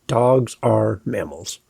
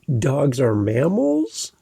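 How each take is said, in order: First: The pitch falls at the end. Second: The pitch rises at the end. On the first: It is a statement of fact. The speaker calls it right. "These are declarative statements" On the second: The speaker sounds unsure, like asking a question. The speaker calls it wrong. "that's a question, kind of. It's not a statement"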